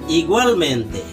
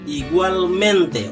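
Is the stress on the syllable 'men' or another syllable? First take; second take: another; men. First: The stress is not on the syllable 'men'. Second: The stress is on the syllable 'men'. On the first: The speaker calls it wrong. "Orang tidak akan menyebutnya" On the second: The speaker calls it right. "penekanannya itu ada di di suku kata me"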